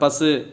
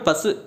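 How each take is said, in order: First: The final vowel is held full length. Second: The final vowel is clipped short. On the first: The speaker calls it right. "பசு அப்படின்னு சொல்லுவாங்க" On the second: The speaker calls it wrong. "ஷார்ட்டாக சொல்ல மாட்டாங்க"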